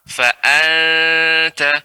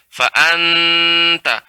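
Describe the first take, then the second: First: The n is hidden and nasalized lightly. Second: The n is fully closed with the tongue. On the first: The speaker calls it right. "Yang benar ikhfa" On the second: The speaker calls it wrong. "lengket terus"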